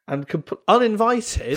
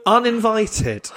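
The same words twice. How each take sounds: First: Said through a laugh, pitched up; uninvited breaking into laughter. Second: Uninvited drawn out slowly, every syllable weighted; uninvited stretched slowly for effect; slow emphasis. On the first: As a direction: giggle the word uninvited out high. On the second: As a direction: lean hard on uninvited, slow and deliberate. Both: Real, not acted.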